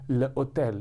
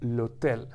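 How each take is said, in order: First: There is a break before the noun. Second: The article runs straight into the noun. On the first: The speaker calls it wrong. "You would feel that unnatural pause in your throat" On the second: The speaker calls it right. "which is not there anymore"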